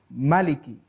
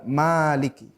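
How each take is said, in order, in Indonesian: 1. Vokal pertama dibaca pendek. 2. Vokal pertama dibaca panjang. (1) "itu membacanya pendek" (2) "dibaca panjang"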